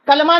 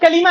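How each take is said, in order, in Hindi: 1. L और M के बीच कोई स्वर सुनाई नहीं देता। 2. L और M के बीच i स्वर सुनाई देता है। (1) "कलमा नहीं है ये, बाज लोग कलमा बोलते हैं इसको।" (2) "लाम पर जेर है"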